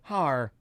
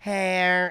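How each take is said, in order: First: The vowel sounds like the one in 'car'. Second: The vowel sounds like the one in 'air'. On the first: The computer voice has been adjusted to the intended pronunciation. The speaker calls it right. "and then it'll go har" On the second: The computer voice gets the name wrong. The speaker calls it wrong. "it may go hair"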